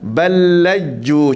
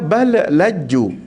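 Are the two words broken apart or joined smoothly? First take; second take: joined; broken. First: The lam sounds merge smoothly in one breath. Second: The first lam is stopped with a break. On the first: The speaker calls it right. "masukkan lam ke uh, pertama ke lam yang kedua dengan tasydid dia" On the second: The speaker calls it wrong. "Kalau orang tak belajar, dia baca bal laju. Dia terberhenti, ambil nafas lain"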